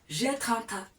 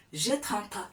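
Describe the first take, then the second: No difference in how they are said.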